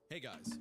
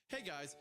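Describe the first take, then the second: First: It is read in a plain, ordinary voice. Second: It is said in a put-on, upbeat vlogger voice.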